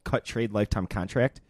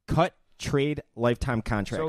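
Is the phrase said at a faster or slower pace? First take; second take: faster; slower. First: The phrase is said at a normal pace. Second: The phrase is said more slowly.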